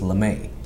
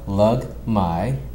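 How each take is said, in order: First: The surname is said the French way, 'Le-may'. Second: The surname is said the Filipino way, 'Lug-mai'. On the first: This is a fancy version said for fun. "the exotic French version way" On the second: This is how the family's own culture says it. "that's the Filipino version"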